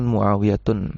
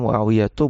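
First: The word ends with an added n sound. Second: The word ends on a vowel without n. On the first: The speaker calls it wrong. "bukan Muawiyatun" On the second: The speaker calls it right. "cara bacanya Muawiyatu"

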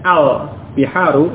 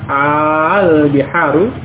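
First: The first vowel of 'al' is short. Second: The first vowel of 'al' is long. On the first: It is a plain statement: the seas. "yang asalnya pendek al-biharu itu hanya alif lam" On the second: It asks a question: are they the seas? "Kalau panjang"

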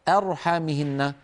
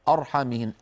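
First: The opening hamza is light, not emphatic. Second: The opening hamza is heavy and emphatic. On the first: The speaker calls it right. "أرحى من همزة مرققة إلى راء مفخمة" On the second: The speaker calls it wrong. "ولا نقول أبدا أرحمهن"

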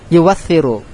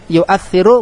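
First: A w sound replaces the glottal stop. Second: A glottal stop is kept after the first syllable. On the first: "mengganti hamzah dengan huruf yang mencocoki harokat sebelumnya" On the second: "Boleh dibaca menetapkan hamzah"

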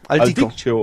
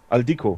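First: The name ends with a 'sio' sound. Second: The name ends with a 'ko' sound. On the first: The speaker calls it wrong. "lese es anscheinend nie richtig" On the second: The speaker calls it right. "Ne, Aldico"

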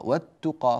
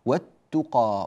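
First: The L sound merges into a doubled T sound. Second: The same.

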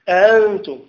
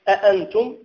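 First: The second glottal stop is softened. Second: The second glottal stop is fully pronounced. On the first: The speaker calls it right. "فهي حرف غير معروف" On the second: The speaker calls it wrong. "لا أقول أنتم"

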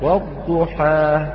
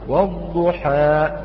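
First: The final vowel simply fades out with the breath. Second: The final vowel ends in a glottal stop. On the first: The speaker calls it right. "لابد من انتهائها بانتهاء الهواء، والضحى وليس" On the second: The speaker calls it wrong. "البعض يهمز هذا الحرف فيقول والضحى، أوقفت الصوت في مخرج الهمزة"

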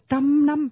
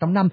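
First: Both syllables are stressed equally strongly. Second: One syllable is stressed more than the other. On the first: The speaker calls it right. "cái trăm năm là nhấn hai cái đều nhau" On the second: The speaker calls it wrong. "không có chuyện nhấn một mẹ một mẹ, không ai đọc trăm năm"

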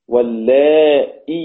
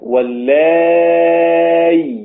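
First: A glottal stop with an i vowel follows the a. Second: A plain y sound without a stop follows the a. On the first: "صارت همزة مكسورة" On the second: "بإبدال الهمزة المكسورة ياء ساكنة. هكذا"

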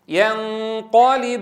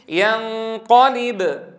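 First: It flows on with only a weak echo. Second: It stops on the b with a strong echo. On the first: "لم أدع لهذا الصدى الذي تولد من القلقلة أن ينتشر" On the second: "لكن لما وقفت تجلى صدى الحرف بدرجة أعلى"

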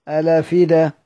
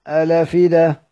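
Both takes have the same delivery.

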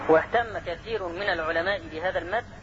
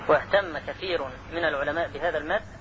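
No difference in how they are said.

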